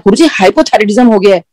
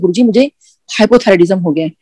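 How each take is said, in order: First: It is said loudly, almost shouted. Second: It is said softly, barely voiced.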